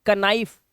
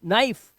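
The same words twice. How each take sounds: First: "कनाइफ" with the K sounded; wrong reading of knife. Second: "नाइफ" starting straight on N; one-syllable "नाइफ", no K at all; silent K. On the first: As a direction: say "कनाइफ", a K syllable before "नाइफ". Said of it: "नहीं पढ़ना है". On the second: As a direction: drop the K and say "नाइफ". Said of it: "कनाइफ नहीं पढ़ना है". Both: Shown as a demonstration.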